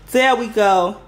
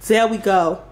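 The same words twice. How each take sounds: The two takes are said the same way.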